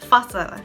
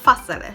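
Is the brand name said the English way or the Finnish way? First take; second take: Finnish; Finnish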